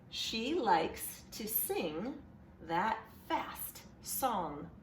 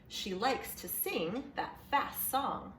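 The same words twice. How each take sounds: First: It is read slowly and choppily, like a robot. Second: It is read faster and more smoothly, flowing along. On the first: "I read it a little bit like a robot" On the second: "read it with me a little bit faster this time"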